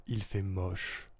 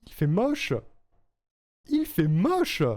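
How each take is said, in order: First: Slow, low and soft; low take. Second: Much higher voice, lifting at the end; higher-pitched. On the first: Streamer tries another take of a line, low and slow. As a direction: drop it down low, drawn out and quiet. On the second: Streamer tries a line for a recording, higher-pitched. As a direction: push the line way up high. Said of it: "En plus aigu". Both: Shown as a demonstration.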